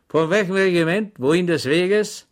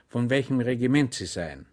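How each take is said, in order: First: A sudden challenge from a stranger, higher and louder; unseen voice in the dark. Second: Said in the usual way. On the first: A narrator's reading. Stranger in the haystack challenging Schweig, loud and sharp. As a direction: call out suddenly from the hay. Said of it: "vernahm er ... eine Stimme". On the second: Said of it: "fragte Schweig".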